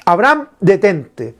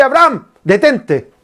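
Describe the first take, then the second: First: Slow, eased-down repeat of the call; slower, gentler divine command. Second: Raised, calling out to stop him; urgent divine command. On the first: God repeats to Abraham, slow and gentle. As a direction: soften and slow the second call. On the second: God calls to Abraham to stop, urgent. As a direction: call out to halt the sacrifice. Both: Retold or imitated. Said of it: "Dios le dice".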